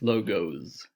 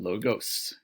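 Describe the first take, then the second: First: The word ends with a buzzing Z sound. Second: The word ends with a hissing S sound. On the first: It refers to company emblems and icons. "there's sort of a Z sound at the end of that word" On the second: It refers to persuasion by logic. "more of a, a normal S sound at the end"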